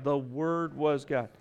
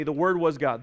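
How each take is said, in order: First: "The Word was God" softer and slowed, each word weighed; the congregation's echo, said softly and slowly; soft slow emphasis. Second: Said in the usual way. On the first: Shown as a demonstration. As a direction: let it sink in, quiet and slow. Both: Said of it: "Just say that with me".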